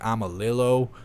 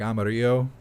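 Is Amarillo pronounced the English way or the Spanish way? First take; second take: English; Spanish. First: Amarillo is pronounced with an English-style reading. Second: Amarillo is pronounced with a Spanish-style reading. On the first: This is how locals probably say the name. "which is probably like Amarillo, Texas" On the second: This follows the spelling, the Spanish word for yellow. "it's spelled like Amarillo, which is yellow in Spanish"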